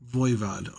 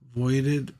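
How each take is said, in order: First: The name ends with a 'vod' sound. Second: The name ends with a 'ded' sound. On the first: The speaker calls it right. "Voivod is the actual pronunciation of the group" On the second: The speaker calls it wrong. "I can't say that"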